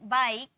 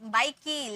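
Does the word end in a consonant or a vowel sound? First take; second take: consonant; vowel. First: The word ends on the k consonant. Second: The word ends with an added ee vowel. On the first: The speaker calls it right. "ई का कोई sound नहीं होता है" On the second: The speaker calls it wrong. "ऐसे नहीं पढ़ेंगे"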